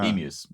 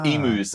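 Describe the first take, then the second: First: It is said with an Australian pronunciation. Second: It is said with an American pronunciation.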